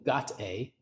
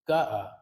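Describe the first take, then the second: First: The T sound is clearly pronounced between vowels. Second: The T sound is dropped between the vowels. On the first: "meaning got a" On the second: "using elision and dropping that T sound"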